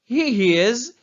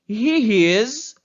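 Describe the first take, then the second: Both takes have the same delivery.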